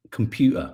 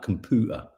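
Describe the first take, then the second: First: Said in the usual way. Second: "computer" said as "com-POO-ter"; altered pronunciation. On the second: Shown as a demonstration. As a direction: drop the y glide in "computer". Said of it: "sounded like computer".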